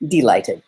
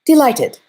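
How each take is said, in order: First: Delighted repeated lower, settling; lower echo. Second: High and louder delighted; bright first Delighted, pitched up; eager repeat. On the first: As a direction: drop Delighted back down. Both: A narrator's reading. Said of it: "it went on".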